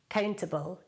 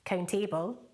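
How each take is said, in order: First: The ending is said as a reduced, weak syllable. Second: The ending is said as a full 'able'. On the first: The speaker calls it right. "it becomes able" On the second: The speaker calls it wrong. "It's very common for people to pronounce it"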